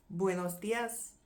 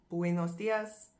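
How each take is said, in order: First: Buenos dias slow, Spanish sounds; Spanish greeting. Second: Buenos dias slow and Spanish; Spanish greeting. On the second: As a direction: repeat buenos dias slowly. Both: Shown as a demonstration. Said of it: "good morning in English".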